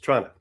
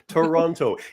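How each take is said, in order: First: The word is squeezed into two syllables. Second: The word is said with all three syllables. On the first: This is how a local says it. The speaker calls it right. "Two syllables" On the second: This is how a visitor says it. The speaker calls it wrong. "People that have only been there once"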